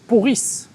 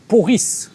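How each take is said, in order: First: The first vowel is an 'o' sound. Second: The first vowel is an 'o' sound.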